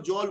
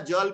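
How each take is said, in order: First: The vowel is rounded toward an 'au' sound. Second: The vowel is a plain short 'a' sound. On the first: Local regional influence changes the vowel. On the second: This is the intended standard form of the word.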